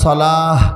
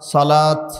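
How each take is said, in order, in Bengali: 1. শব্দটি h ধ্বনি দিয়ে শেষ হয়। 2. শব্দটি t ধ্বনি দিয়ে শেষ হয়। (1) "শেষে হ, বাংলাতে যেটা হ বলি" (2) "আবার যদি ত উচ্চারণ করেন"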